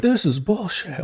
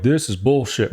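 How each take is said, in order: First: Slow, higher grumbling parent; a mock fed-up parent complaint; exasperated parent. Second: Said in the usual way. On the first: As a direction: drag it out like an annoyed boomer parent. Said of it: "My parents would be like". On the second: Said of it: "my parents would be like".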